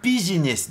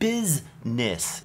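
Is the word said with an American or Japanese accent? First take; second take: Japanese; American. First: It is said with Japanese katakana-style syllables. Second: It is said with American English sounds. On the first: The speaker calls it wrong. "カタカナ英語で言うとビジネスですよね" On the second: The speaker calls it right. "アメリカ英語の発音がしますね"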